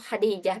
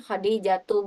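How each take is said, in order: First: The name ends without a final vowel. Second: The name ends with an added -tu ending. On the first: The speaker calls it right. "itu langsung Khadijah bilangnya" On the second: The speaker calls it wrong. "bukan Khadijatu"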